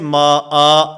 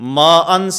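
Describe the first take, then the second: First: The word ends with a long a vowel. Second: The word ends with an n sound. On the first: The reciter stops on this word. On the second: The reciter continues without stopping.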